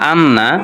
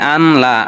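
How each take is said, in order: First: The n sound is held and doubled. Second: The n is followed by an l sound. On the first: The speaker calls it right. "সুকুনের পরে তাসদীদ আসলে আর সুকুন পড়া যায় না, তাসদীদই পড়তে হয়" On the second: The speaker calls it wrong. "অনেকে পড়ে দেখছি আনলা বলে"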